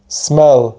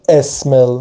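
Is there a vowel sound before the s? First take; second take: no; yes. First: The word starts directly with the s. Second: A vowel sound comes before the s. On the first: The speaker calls it right. "ساکن تلفظ میکنیم سه اولش رو" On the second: The speaker calls it wrong. "نمیگم اسمل"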